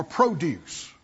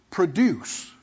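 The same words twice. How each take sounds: First: Produce said as the noun, stress on the first syllable, PRO-duce; preacher says produce slowly, with a long PRO first. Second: Produce said as the verb, stress on the second syllable, pro-DUCE; preacher says produce with a light pro and the stress on DUCE. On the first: Preacher contrasting it for the congregation, the noun produce, stressed PRO. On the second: Preacher showing the congregation the verb produce, stressed on DUCE. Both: Shown as a demonstration. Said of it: "as a verb or a noun".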